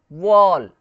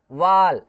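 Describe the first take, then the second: First: "वॉल" loud, with a rounded long "aw"; correct AW sound. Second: "वाल" loud, with open "aa" instead of "aw"; mispronounced wall. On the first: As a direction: model "वॉल" with rounded lips on the vowel. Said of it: "इसको कैसे पढ़ेंगे". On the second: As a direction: model the common mistake "वाल" with a long "aa". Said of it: "ऐसा नहीं". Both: Shown as a demonstration.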